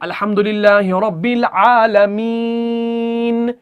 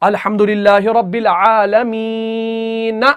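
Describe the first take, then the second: First: The final n is held with no vowel. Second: The final n is followed by a short a. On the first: The speaker calls it right. "जब हम वक्फ करते हैं आयत के ऊपर" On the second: The speaker calls it wrong. "नून के ऊपर जबर है तो हम नहीं पढ़ते हैं"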